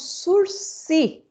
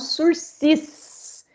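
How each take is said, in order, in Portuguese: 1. O S final é mudo. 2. O S final é claramente pronunciado. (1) "esse é o Instituto do sursis" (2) "e não sursis. Sursis jamais"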